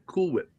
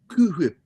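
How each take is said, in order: First: Whip starts plainly, without a breathy h. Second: Whip starts with a strong breathy h. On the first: This is the ordinary way to say it. "there's only one way to pronounce that" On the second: It imitates a cartoon character's mannered speech. "Unless you're Stewie, then it's"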